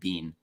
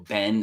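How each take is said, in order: First: The word rhymes with 'bean'. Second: The word rhymes with 'Ben'. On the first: This is the form the speaker does not use. "e non Bean" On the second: This is the standard American form. "io dico Ben"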